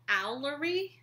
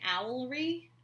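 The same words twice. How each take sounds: First: The word ends in three syllables: owl-er-y. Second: The word ends in two syllables: owl-ree. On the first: The speaker calls it right. "Stephen Fry says it owl, owlery" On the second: The speaker calls it wrong. "I was saying owlery"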